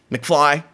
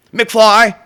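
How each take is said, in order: First: Said in the usual way. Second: "McFly" barked higher and louder; mocking loud call of "McFly"; loud taunt. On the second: Real, not acted. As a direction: throw the name out like a schoolyard taunt. Taunting viewer, repeated.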